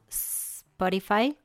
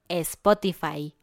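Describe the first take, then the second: First: The word starts directly with the s sound. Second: The word starts with an added e vowel. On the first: It may seem strange or funny to friends. "correctamente en inglés" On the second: It is the usual way in Mexico. "la mayoría de los mexicanos dice Spotify"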